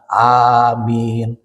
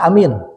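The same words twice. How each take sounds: First: The first vowel is held long. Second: The first vowel is short. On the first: The speaker calls it right. "Bacaannya amin dua harokat" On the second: The speaker calls it wrong. "pondok we amin lepat"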